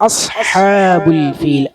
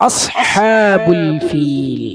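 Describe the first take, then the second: Both takes have the same delivery.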